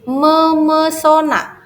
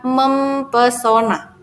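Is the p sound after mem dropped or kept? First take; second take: dropped; kept. First: The p sound after mem is dropped. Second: The p sound after mem is kept. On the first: The speaker calls it right. "akan menjadi memesona" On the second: The speaker calls it wrong. "bukan mempesona"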